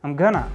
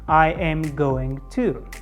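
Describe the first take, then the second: First: The words are run together quickly and reduced. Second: Each word is said fully and separately. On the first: The speaker calls it right. "our speed of speaking will go up, and second, our sounds will become more natural" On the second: The speaker calls it wrong. "how much time do I need to spend on every single word in this example?"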